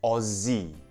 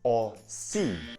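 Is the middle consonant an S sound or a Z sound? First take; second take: Z sound; S sound. First: The middle consonant is a buzzing Z sound. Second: The middle consonant is a hissing S sound. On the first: The speaker calls it right. "it does not make the S sound. It makes the Z sound" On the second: The speaker calls it wrong. "not Aussie"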